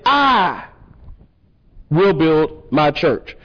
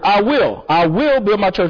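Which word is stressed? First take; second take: I; will. First: The word "I" carries the main stress. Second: The word "will" carries the main stress. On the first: No one else will do the building. "he emphatically, in this small phrase, said" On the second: The building is a firm, deliberate intention. "the next word"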